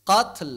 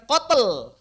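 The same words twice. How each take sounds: First: "qatl" with an aspirated t straight into l; no vowel between t and l in "qatl", just air; breath on ta. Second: "qatl" said as "qotel"; exaggerated "qat-el", louder and drawn out; wrong voiced release. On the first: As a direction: puff the t of "qatl". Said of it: "qatl, bukan qatl". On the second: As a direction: slip a voiced schwa between t and l of "qatl". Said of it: "bukan qatl". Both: Shown as a demonstration.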